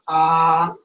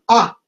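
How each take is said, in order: First: The vowel is said plainly, without extra emphasis. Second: The vowel is said with more emphasis. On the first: "No es una A" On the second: "esta A simplemente es con más énfasis"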